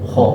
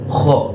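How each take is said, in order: First: The kh sound is light without any rattling rasp. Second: The kh sound is thick with a rattling rasp. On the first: "tidak ada ngorok. Ya, tidak bergetar" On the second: "ada yang mengucapkannya itu tebel, kha, pakai ada, ada ngoroknya"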